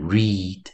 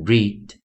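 First: The vowel is long, like in 'reed'. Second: The vowel is short, like in 'it'. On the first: The speaker calls it wrong. "注意不是要念read" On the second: The speaker calls it right. "是念read"

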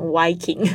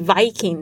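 First: It begins with a W sound. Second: It begins with a V sound.

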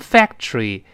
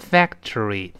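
First: The syllables are run together and reduced. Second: Each syllable is said separately and fully. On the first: "英国人读成factory" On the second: "美国人读成factory"

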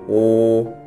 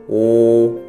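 Both takes have the same delivery.

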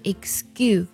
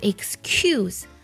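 First: The c is said as a voiced g. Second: The c is said as a voiceless k. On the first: The speaker calls it right. "而读作excuse, 是这样去读它" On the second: The speaker calls it wrong. "这个单词千万不要读作excuse"

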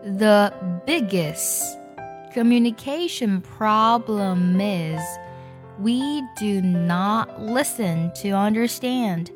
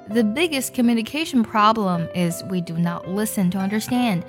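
First: The sentence is read slowly. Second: The sentence is read at normal speed.

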